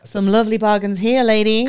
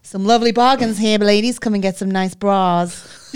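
First: Louder mock market announcer; hammed-up market seller calling; lightly voiced stallholder pitch; market tannoy voice. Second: Louder, showy showbiz patter; hammed-up showbiz stallholder; a scouse stallholder's mock showbiz voice. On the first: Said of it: "the woman on the microphone". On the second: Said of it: "puts on this, like, showbiz voice".

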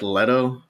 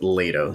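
First: "Leto" said as LET-oh; short e in "Leto", as in let; spelling pronunciation. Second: "Leto" said as LAY-toh; long "lay" at the start of "Leto"; corrected pronunciation. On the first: Podcaster reading the name as it looks, "Leto" as LET-oh. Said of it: "looks like Leto". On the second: Podcaster giving the name's actual pronunciation, "Leto" as LAY-toh. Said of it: "it's actually pronounced Leto". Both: Shown as a demonstration.

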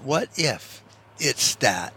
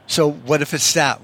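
First: Slower, softer, drawn-out "What if it's that?"; quiet, slow wondering echo; slow musing repeat. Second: Said in the usual way. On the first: Shown as a demonstration. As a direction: let "What if it's that?" hang slowly, softer.

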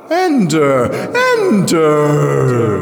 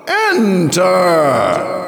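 First: High, loud, ringing calls, falling away; mocking urging. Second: One long, high shout; commanding cry. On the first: Mirrored lips urge Jirel to enter, mocking. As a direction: lure her in with echoing calls. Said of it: "urged that mocking voice". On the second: The voice orders Jirel into the globe, commanding shout. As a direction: order her in with a ringing cry. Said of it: "cried the voice again, this time a command". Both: A narrator's reading.

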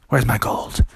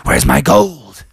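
First: Said in the usual way. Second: Higher, louder, drawn-out demand; mounting outrage, stretched out; angry bear. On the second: Acted. Bear finds his gold gone, angry bear voice. Bear asks again, enraged.

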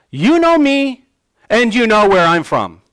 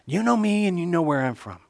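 First: Loud, high mocking cry; sarcastic cry. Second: Soft, playful mockery; facetious. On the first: Jesus crying out to the doubters in the temple, sarcastically. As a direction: cry out with biting sarcasm, voice raised. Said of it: "He cries out sarcastically". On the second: Jesus toying with the doubters' claim, facetiously. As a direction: tease them lightly, voice lowered in volume. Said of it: "Christ is being facetious".

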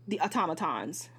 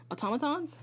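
First: Said in the usual way. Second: Doubting question. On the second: Real, not acted.

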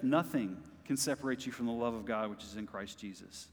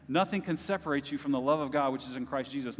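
First: Hushed repeat. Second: Said in the usual way. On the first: Real, not acted. Repeats verse softly after shout.

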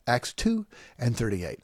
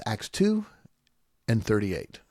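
First: Said in the usual way. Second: A mock of how others cite it; the way they say it. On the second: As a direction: split the reference with a rise on "two" and a beat before "thirty-eight". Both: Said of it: "they say it like that".

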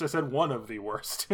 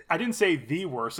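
First: "one" leaned on as a correction; emphasize "one" to qualify the claim; stress on "one". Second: "the" said as an emphatic "thee"; stress on "the". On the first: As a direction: punch "one", let the rest fall away. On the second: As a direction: lean on "the" to correct a misquote. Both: Real, not acted.

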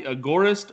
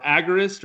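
First: "Agorist" as uh-GOR-ist; second-syllable stress. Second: "Agorist" as AG-er-ist; first-syllable stress. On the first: Host asking guest about his name, "Agorist" as uh-GOR-ist. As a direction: stress the GOR in "Agorist", short first vowel. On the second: Host checking with guest, "Agorist" as AG-er-ist. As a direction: hit the opening AG of "Agorist", weak middle. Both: Shown as a demonstration. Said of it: "how are we pronouncing that word?".

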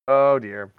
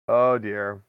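Both takes have the same delivery.

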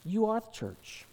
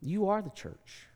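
First: "You" hit high and held at the start of "You are the church"; stress on YOU. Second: "are" pressed in "You are the church", higher start; stress on ARE. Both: Shown as a demonstration. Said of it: "repeated emphatic line".

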